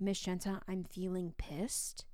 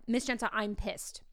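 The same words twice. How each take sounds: First: Retold student whisper. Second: Said in the usual way. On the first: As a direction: imitate a student confiding quietly. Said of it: "a student whispered to me". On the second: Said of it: "They said, like".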